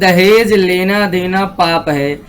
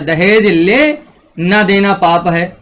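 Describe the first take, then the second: First: It flows without a pause after 'ले'. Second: There is a pause right after 'ले'. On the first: Both taking and giving dowry are sins. "कहीं इसमें अल्प विराम नहीं है" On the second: Take dowry; giving it is the sin. "दहेज ले के बाद कॉमा लगा दिया"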